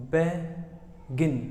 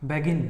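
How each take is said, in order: First: "begin" split in two, BE, long pause, GIN; syllable break. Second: Said in the usual way. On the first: Shown as a demonstration. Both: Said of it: "आपकी ज़बान बीच में एक बार रुकेगी".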